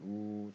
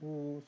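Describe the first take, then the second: First: The sound is low in pitch. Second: The sound is high in pitch. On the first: It sounds like a male voice. "A가 이제 저음이라면" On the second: It sounds like a female voice. "얘는 고음이 나오는 거죠"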